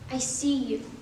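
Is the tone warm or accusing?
warm. It sounds warm and accepting.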